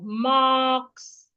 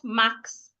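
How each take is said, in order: First: The vowel is held long. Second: The vowel is cut short. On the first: The speaker calls it right. "a long vowel" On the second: The speaker calls it wrong. "not marks"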